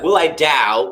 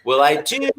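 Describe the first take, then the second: First: "Dow" with the vowel shifted to ow; modified vowel. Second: "do" with a pure oo vowel. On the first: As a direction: sing "Dow" instead of a pure "do". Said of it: "instead of doing". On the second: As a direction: keep the oo in "do" unmodified. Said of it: "take the hardest vowel". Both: Shown as a demonstration.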